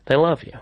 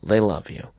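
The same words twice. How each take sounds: First: "love" lifted with a rising lilt; stress on love. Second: Said in the usual way. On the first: Shown as a demonstration. Host reassuring the guest, "love" stressed and rising. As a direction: lean into "love" and let it rise.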